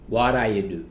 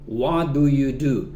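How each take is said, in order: First: The first words blur together like 'waraya'. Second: Each word is said fully and separately. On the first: "simplemente vas a escuchar What are you do?" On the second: "podemos leer la pregunta What do you do?"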